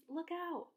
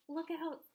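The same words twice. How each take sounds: First: James crying a warning, higher; cried out. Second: Cried out. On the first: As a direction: call out look out sharply. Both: A narrator's reading. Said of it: "cried James".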